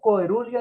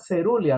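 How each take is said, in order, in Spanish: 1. La palabra empieza con un sonido 'ko-e' fuerte. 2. La palabra empieza con un sonido 'se' suave. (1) "no coerulia" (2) "se pronuncia cerulia"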